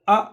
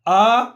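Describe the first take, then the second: First: The vowel is cut short quickly. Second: The vowel is drawn out long. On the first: The speaker calls it right. "अ right" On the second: The speaker calls it wrong. "आ गलत"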